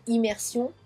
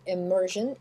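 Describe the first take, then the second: First: Said in the usual way. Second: Slow English immersion, ending "zhun"; zh sound in immersion. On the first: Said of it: "pareil, même mot". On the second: Shown as a demonstration. Teacher repeating the English ending, slow immersion with zh. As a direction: stretch immersion out, S said as zh. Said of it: "je, immersion".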